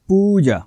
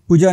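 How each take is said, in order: First: The first vowel is long. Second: The first vowel is short. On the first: The speaker calls it right. "त्यांचा उच्चार वाक्य दीर्घ करायचा आहे" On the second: The speaker calls it wrong. "नाही"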